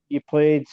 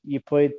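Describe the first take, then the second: No difference in how they are said.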